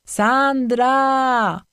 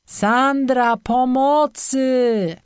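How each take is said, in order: First: Higher, louder call from far off in the woods; distant male call. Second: Higher, louder, slow cry of pain from below; pained cry for help. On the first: Boyfriend calls Sandra's name from the woods. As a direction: call her name from somewhere below. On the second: Boyfriend cries to Sandra for help in pain. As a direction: call for help in pain, dragging the words. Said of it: "bólem w głosie Patryka". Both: A narrator's reading.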